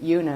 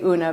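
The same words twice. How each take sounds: First: The name begins with a y sound. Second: The name begins without a y sound. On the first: This is how the name's owner says it. "I actually pronounce it Una as if it had a Y in front of it" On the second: This is how many people say it. "Lots of people say Una"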